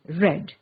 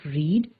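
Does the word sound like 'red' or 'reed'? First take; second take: red; reed. First: The vowel is short, like in 'red'. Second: The vowel is long, like in 'reed'. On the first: This is the past tense form. "The past tense of read is read" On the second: This is the present tense form. "the pronunciation of the verb changes"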